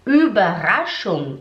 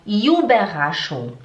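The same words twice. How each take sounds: First: Überraschung slowly with a rounded German Ü; Überraschung with lips rounded on the Ü; correct German Ü. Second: Überraschung said as iu-berraschung, the Ü split into i and u; Überraschung imitating the student's iu sound; student's wrong Ü. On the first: Shown as a demonstration. Teacher demonstrates the correct Ü in Überraschung. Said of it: "em vez de falar". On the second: Teacher imitates her student's wrong Ü in Überraschung. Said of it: "ela falava Überraschung".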